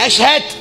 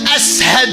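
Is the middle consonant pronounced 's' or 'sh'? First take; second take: sh; s. First: The middle consonant is a 'sh' sound. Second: The middle consonant is a plain 's' sound. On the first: "جيب لك واحد يقول شنو أشهد" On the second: "بلال ما يلفظ الشين"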